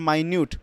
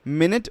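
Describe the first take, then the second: First: The first syllable sounds like 'my'. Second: The first syllable sounds like 'min'. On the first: The speaker calls it right. "इसको हम लोग यहाँ पे माइन्यूट बोलेंगे" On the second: The speaker calls it wrong. "मिनट नहीं बोलेंगे"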